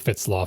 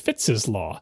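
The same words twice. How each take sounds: First: The name is one syllable, plain Fitts. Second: The name has an extra syllable, like Fitses. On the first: It follows long habit and common usage. "I've been saying Fitts' Law for my entire life" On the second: It follows the formal possessive spelling. "is F I T T S apostrophe S, which you would pronounce as"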